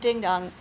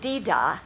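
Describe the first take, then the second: First: The NG sound is only lightly hinted. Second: The NG sound is dropped completely. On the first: The speaker calls it right. "and you hardly say the NG" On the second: The speaker calls it wrong. "if you really left off the NG, you would be saying dee-da, which is really wrong"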